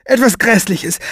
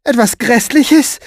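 First: High, dramatic dread, falling at the end; agitated, pitched up; alarmed statement. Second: High, loud, slow rising question; alarmed, stretched-out query; shocked echo. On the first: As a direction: pronounce the worst as certain. Woman fears the worst. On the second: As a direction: repeat it in horrified disbelief. She echoes his words as question. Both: Acted.

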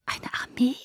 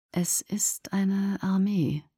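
First: Higher, whispered echo in disbelief; whispered question. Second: Slow, half-whispered murmur. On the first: Alice echoing Jasper's revelation, whispering. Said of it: "flüsterte Alice". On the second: Jasper staring into space as he realises, murmuring. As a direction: murmur it slowly, as if staring into emptiness. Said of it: "murmelte er". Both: A narrator's reading.

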